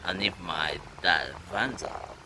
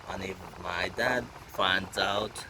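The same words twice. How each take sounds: The two takes are said the same way.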